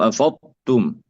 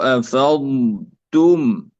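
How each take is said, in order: First: أفضتم with ض swallowed into ت; أفضتم, no held ض before the ت; wrongly merged dad. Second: أفضتم slowly, with ض drawn out before ت; أفضتم with a long, unmerged ض; separate lengthened dad. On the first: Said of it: "الضاد لا تدغم في التاء". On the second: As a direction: hold the ض in أفضتم, then release a clean ت. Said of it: "أولًا ننطق الضاد". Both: Shown as a demonstration.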